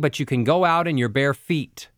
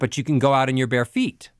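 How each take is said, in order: First: The pitch stays on one note at the end. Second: The pitch goes up at the end.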